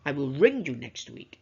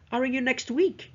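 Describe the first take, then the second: First: The stress falls on the word ring. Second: The stress falls on the words next week. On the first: The contact will be a call, not a meeting. "I'm not going to see you, I'm not going to meet you, I will ring you" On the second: The point is when the call will happen. "to emphasize on time"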